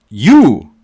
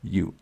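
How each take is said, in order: First: You blasted much louder; shouted you. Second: You dropped low and quiet; a hushed You before the big one; soft you. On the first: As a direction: throw You out with full force. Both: Shown as a demonstration. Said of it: "I'm gonna emphasize that".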